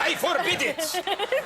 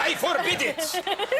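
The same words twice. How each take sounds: First: It is said in a Latin accent. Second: It is said in a Latin accent.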